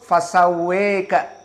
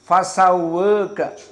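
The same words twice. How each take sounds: First: The long vowel is pulled strongly toward e. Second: The long vowel is between a and e. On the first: "with al-Imalah al-Kubra" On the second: "with at-taqlil"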